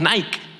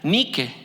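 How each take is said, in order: First: It is pronounced the Spanish way. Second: It is pronounced the Greek way. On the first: "y que nosotros decimos Nike" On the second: "En la palabra griega que se pronuncia Nike"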